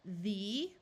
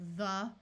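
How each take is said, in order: First: The vowel is long, like 'thee'. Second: The vowel is short and reduced, like 'thuh'. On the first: "we will try the vowel's long sound" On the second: "our mouths get a little lazy because we're in a hurry"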